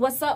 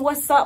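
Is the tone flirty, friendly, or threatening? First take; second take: friendly; threatening. First: It sounds like a friendly everyday greeting. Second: It sounds like a threatening challenge to fight.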